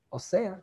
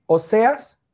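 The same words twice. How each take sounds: First: Osea with the final s dropped, Puerto Rican style; Puerto Rican accent. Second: Said in the usual way. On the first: Shown as a demonstration. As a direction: say Oseas the boricua way, as Osea. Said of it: "como dicen". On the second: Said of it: "sin acento boricua".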